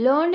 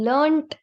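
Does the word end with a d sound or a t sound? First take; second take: d sound; t sound. First: The word ends with a d sound. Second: The word ends with a t sound. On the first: This is the American English form. "Is standard in American English" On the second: This is the British English form. "Is standard in British English"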